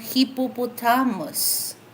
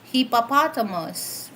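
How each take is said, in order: First: It is said with a Filipino accent. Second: It is said with an American accent. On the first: "So for Filipino" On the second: "for American"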